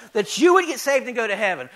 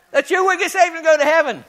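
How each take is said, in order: First: Said in the usual way. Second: Higher, louder and faster, pushing the line out; fired-up preaching. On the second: Acted. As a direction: stoke the crowd with it. Repeats it after asking who's excited.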